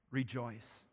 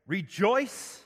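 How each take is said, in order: First: Rejoice said much softer, falling away. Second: Rejoice called out louder with a rising end; emphatic repeat. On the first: Preacher giving Paul's answer to the church, said softly. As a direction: drop to a soft Rejoice that falls at the end. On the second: Preacher repeating Paul's command to the congregation, called out louder. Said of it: "I will say it again". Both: Acted.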